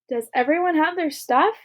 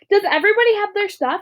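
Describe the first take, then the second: First: It is said in a calm, normal voice. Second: It is yelled loudly and excitedly.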